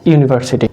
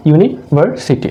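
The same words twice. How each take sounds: First: Said in the usual way. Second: university in three parts, ইউনি, ভার, city; split into syllables. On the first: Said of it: "ভাঙার পর এটা কি হয়েছে". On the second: Shown as a demonstration. Teacher breaking a word for students, university said as three separate pieces. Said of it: "একটা শব্দকে আমরা তিন ভাগে ভাঙলাম".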